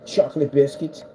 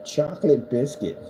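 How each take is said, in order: Both takes have the same delivery.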